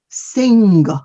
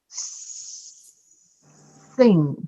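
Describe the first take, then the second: First: It ends with an audible hard G sound. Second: It ends in a nasal, with no G released. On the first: The speaker calls it wrong. "Some people say sing, and that is wrong" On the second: The speaker calls it right. "So you say sing"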